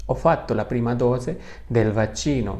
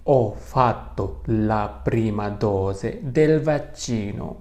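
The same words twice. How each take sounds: First: "ho fatto la prima dose del vaccino" at a more flowing, natural speed; repeated at easier pace. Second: Very slow, each syllable of "ho fatto la prima dose del vaccino" spelled out; slow model sentence. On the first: Teacher to students, repeating the sentence more fluently. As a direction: say it again closer to normal. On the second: Teacher to students, reading the sentence very slowly. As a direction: drag the sentence out for learners to copy. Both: Shown as a demonstration.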